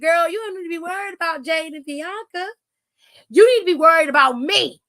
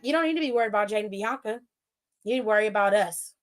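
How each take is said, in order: First: It is said loudly with passion and conviction. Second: It is said flatly without passion or volume.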